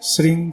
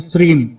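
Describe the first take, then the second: First: The syllable ends in a nasal ng sound. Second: The syllable ends in a clear m sound. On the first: The speaker calls it right. "बाकी शब्द नाक से बोला जाता है" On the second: The speaker calls it wrong. "कुछ लोग म भी इस्तेमाल करते हैं"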